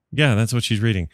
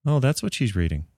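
First: Said in the usual way. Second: Soft, slightly raised mother-in-law voice; a quiet, doubtful mother-in-law. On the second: Retold or imitated. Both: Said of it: "it's usually more like".

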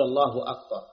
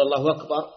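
First: الله أكبر with a distinct glottal stop on أكبر; the better form; clear hamza. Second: الله أكبر run together as allahu wakbar; permitted w-version; hamza turned to w. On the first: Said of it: "لكن الأكمل أن تقول". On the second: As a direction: let the hamza of أكبر soften to w. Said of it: "أن تقلب واوا". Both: Shown as a demonstration.

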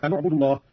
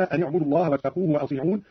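First: أن اعبدوا joined as anu-ʕbudu with a u on the nun; nun with damma. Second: Said in the usual way. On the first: Shown as a demonstration. Teacher demonstrates Qalun's damma on the nun. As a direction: give the nun of أن a u vowel. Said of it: "هكذا". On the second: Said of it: "قرأ قالون بضم أولى الساكنين".

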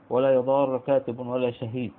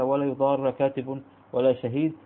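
First: "يضار" ending in a plain r with damma, yuḍāru; damma reading. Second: "يضار" ending in a doubled r with fatha, yuḍārra; fatha reading. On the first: Teacher reciting the damma variant, "يضار" ending yuḍāru. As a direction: close "يضار" with a plain ra and a u vowel. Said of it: "والرفع". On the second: Teacher reciting the fatha variant, "يضار" ending yuḍārra. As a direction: close "يضار" with a stressed doubled ra and an a vowel. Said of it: "قرأت بالفتح". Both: Shown as a demonstration.

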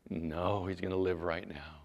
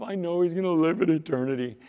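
First: Low, soft, assured answer; calm correction. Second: High-pitched, put-on woman's reply; protesting sister. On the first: Acted. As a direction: drop low and state it quietly. Jesus calmly corrects the sister. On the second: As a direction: pitch it up as the grieving sister answering back. Sister answers Jesus about Lazarus.

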